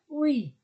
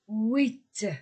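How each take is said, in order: First: The word ends without any t sound. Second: The word ends with a clear t sound. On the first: This is the form used before a consonant. "avec une consonne" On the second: This is the form used before a vowel. "avec une voyelle"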